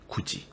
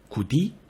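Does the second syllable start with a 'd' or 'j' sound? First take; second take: j; d. First: The second syllable starts with a 'j' sound. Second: The second syllable starts with a 'd' sound. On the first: "구지라고 할 때에는 혀가 그렇게 앞쪽으로 나오지 않죠" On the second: "구디라고 할 때를 보면 혀끝이 앞니의 안쪽 잇몸을 살짝 터치하는 느낌이 들죠"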